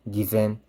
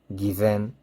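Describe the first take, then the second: Both takes have the same delivery.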